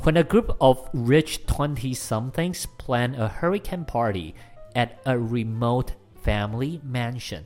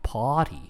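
First: It is said in an American accent. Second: It is said in a British accent.

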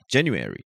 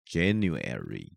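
First: The word is said quickly. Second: The word is said slowly. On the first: "你一开始按是快" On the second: "它会突然变慢"

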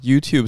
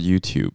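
First: The stress is on the second syllable. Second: The stress is on the first syllable.

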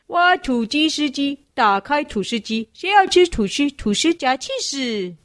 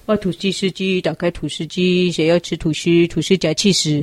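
First: It is said at an ordinary, steady pace. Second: It is said noticeably faster than before.

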